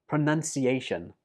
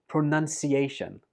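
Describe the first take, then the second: Both takes have the same delivery.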